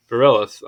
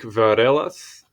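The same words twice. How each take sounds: First: Varelas said the plain English way; English pronunciation. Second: Varelas drawn out with a Portuguese-like accent. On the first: Reader corrects a botched Greek surname, saying varelas English-wise. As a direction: anglicize varelas, with English vowels and r. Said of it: "I'll just say English-wise". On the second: Reader attempts a Greek surname aloud, slipping into Portuguese accent. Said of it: "that was like Portuguese accent". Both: Shown as a demonstration.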